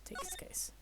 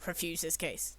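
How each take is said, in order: First: Unvoiced whisper on his case. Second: Said in the usual way. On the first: Shown as a demonstration. Player picking the game option, whispered. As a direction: breathe the choice out secretly. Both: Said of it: "What should I do?".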